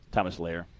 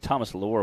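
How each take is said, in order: First: Lair said with the "air" vowel; surname rhyming with Flair. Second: Lohr said to rhyme with "more"; mispronounced surname. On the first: Shown as a demonstration. Commentator corrects a racer's surname, Lair rhyming with Flair. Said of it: "Like F-, Ric Flair". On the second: Real, not acted. Commentator names a racer, surname mispronounced as Lohr. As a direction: say Lohr with an "or" vowel.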